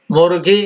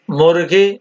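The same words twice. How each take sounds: The two takes are said the same way.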